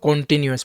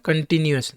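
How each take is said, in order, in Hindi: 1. पहला स्वर पूरा, खुला 'o' है। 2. पहला स्वर छोटा और रिड्यूस्ड है। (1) "ना कि इसको कॉन्टिन्यूस पढ़ेंगे" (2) "इसको हम पर क्या पढ़ेंगे?"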